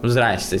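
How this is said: The clipped greeting is said in a brushing-off way. The greeter wants to be left alone. "какое-то такое здрасте, типа, знаешь, как будто отвалите"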